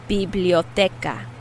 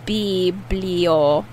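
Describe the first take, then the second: First: Said in the usual way. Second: Syllable by syllable. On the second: Shown as a demonstration. Teacher breaks word into syllables.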